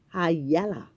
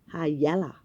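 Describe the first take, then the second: Both takes have the same delivery.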